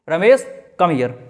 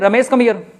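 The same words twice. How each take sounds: First: There is a short pause after the name. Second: It is said straight through without pausing.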